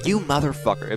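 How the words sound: It is said in a joking, teasing tone. It is a friendly joke, not a real insult. "talking to a friend"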